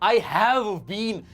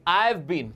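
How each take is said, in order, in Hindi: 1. धीरे बोला गया, हर शब्द अलग, ज़ोर हैव पर। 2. तेज़ और जुड़ा हुआ बोला गया, हैव पर ज़ोर नहीं। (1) "अलग से प्रोनाउंस मत करना, नहीं नहीं नहीं, वर्ड स्ट्रेस ऐसा नहीं रहेगा" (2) "स्पीड में बोलोगे"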